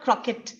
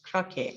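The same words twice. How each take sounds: First: The final T sound is pronounced. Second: The final T sound is silent. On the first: The speaker calls it wrong. "Not croquet" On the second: The speaker calls it right. "The T is silent there"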